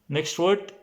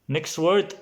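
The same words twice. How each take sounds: The two takes are said the same way.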